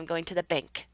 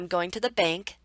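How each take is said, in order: First: The pitch falls on the final word. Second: The pitch stays up on the final word. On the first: The speaker has finished the thought. "I let my intonation fall on the word bank" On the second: The speaker has more to say. "we know by this intonation that the person is not done talking"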